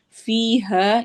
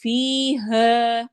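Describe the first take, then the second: First: فیہا said at talking pace as a word to explain; name the word فیہا quickly, no stretch; spoken reference. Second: Slow tajweed recitation with long madd; teacher recites slowly, stretching each vowel; Quran recitation. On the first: Teacher naming the word for students, quickly. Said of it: "یا مدہ اور الف مدہ". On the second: Tajweed teacher demonstrating for students, slow drawn-out recitation. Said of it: "ری، یا مدہ". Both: Shown as a demonstration.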